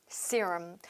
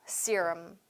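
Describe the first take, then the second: Both takes have the same delivery.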